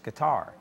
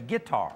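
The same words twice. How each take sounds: First: The stress is on the last syllable. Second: The stress is on the first syllable. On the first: It is the standard way of saying it. "the correct pronunciation is with the accent on the last syllable" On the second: It is the country way of saying it. "if I was country, I'd say guitar"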